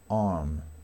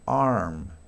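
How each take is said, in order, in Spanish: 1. El sonido de la r apenas se oye o es silencioso. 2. El sonido de la r se pronuncia claramente. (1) "aquí la R no es muy pronunciada, se aproxima" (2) "en inglés americano ya aparece la R, Se pronuncia muy bien"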